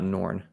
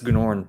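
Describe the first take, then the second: First: The name begins with a plain N sound. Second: The name begins with a hard G sound. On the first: The speaker calls it wrong. "not Norn" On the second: The speaker calls it right. "you do pronounce the G"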